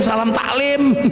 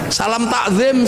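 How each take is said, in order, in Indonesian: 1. Bunyi l mengikuti k. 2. Bunyi z mengikuti k.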